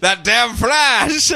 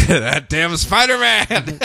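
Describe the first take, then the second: First: Slow, higher mock outrage at the Flash; corrected name in a mock angry rant; mock editor rant. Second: Slow, drawn-out mock outrage at Spider-Man; wrong name in a mock angry rant; mock editor rant. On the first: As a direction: correct it and rant like a cranky newspaper boss. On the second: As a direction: rant like a cranky newspaper boss.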